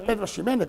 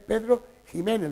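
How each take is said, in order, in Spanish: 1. El nombre empieza con un sonido 'ks'. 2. El nombre empieza con un sonido 'h' gutural. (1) "No es Pedro Ximénez" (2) "es Pedro Jiménez, lo que pasa es que se escribe con X"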